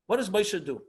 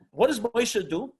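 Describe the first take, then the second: First: "what" stressed, the line falling to its end; repeated question. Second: Slow, with "does" stressed and a rising end; rhetorical question. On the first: Teacher repeats the question to the class, "what" stressed and falling. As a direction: lean on "what" and let it drop. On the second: Teacher poses the question to the class, slow with "does" rising. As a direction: draw out "does" and lift the question. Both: Shown as a demonstration.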